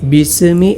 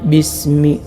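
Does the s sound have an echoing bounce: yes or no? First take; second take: yes; no. First: The s sound is given an echoing bounce. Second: The s sound is smooth, without a bounce. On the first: The speaker calls it wrong. "സീനിൽ ഖൽഖല കൊടുക്കാൻ പാടില്ല" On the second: The speaker calls it right. "ശരിയായ രൂപം"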